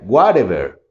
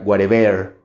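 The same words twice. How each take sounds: First: The stress is on the first syllable. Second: The stress is on the last syllable. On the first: "Y si marcara la primera" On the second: "Si marcamos la final"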